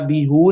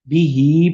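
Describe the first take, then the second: First: The word ends with an 'oo' vowel. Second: The word ends with an 'ee' vowel. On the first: The speaker calls it wrong. "बीहू नहीं करेंगे" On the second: The speaker calls it right. "बल्कि बीही पढ़ेंगे"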